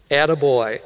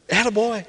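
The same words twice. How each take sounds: First: Said in the usual way. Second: Higher-pitched attaboy. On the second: Shown as a demonstration. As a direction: say "Attaboy" higher, without raising volume. Repeats the phrase as encouragement.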